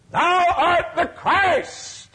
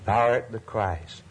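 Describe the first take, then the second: First: High, slow, loud proclamation of Thou art the Christ; soaring cry. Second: Said in the usual way. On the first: Acted. Preacher crying out Peter's confession to the congregation, soaring. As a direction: lift it up and hold it, crying it to the heavens.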